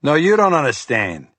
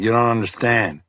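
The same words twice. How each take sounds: First: Rising volume. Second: Said in the usual way. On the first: A narrator's reading. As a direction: throw the words back harder. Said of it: "His voice ticked up in volume".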